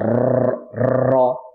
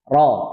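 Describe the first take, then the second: First: The vowel after the r sounds like o. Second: The vowel after the r is an open a. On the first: The speaker calls it wrong. "jangan sampai ro" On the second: The speaker calls it right. "Ra, ra"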